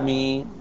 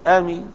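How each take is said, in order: First: The first vowel is kept short. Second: The first vowel is drawn out long. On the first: The speaker calls it wrong. "المد أحسن من القصر" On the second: The speaker calls it right. "والمد أفصح"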